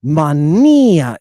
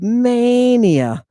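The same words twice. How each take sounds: First: Mania said mah-NEE-ah, Greek style; Greek pronunciation. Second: Mania with a long English MAY; drawn-out MAY at the start of Mania; English pronunciation. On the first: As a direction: stretch and punch the middle NEE of Mania. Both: Shown as a demonstration. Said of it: "Mania in Greek".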